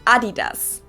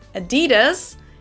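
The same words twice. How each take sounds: First: It is said with a German pronunciation. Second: It is said with an American pronunciation.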